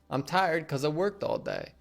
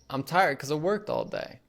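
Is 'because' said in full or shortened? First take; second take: shortened; shortened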